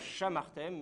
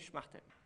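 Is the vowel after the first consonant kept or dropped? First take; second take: kept; dropped. First: A full vowel follows the first consonant. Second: No vowel follows the first consonant. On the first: The speaker calls it wrong. "Non pas chamartem" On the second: The speaker calls it right. "mais schmartem"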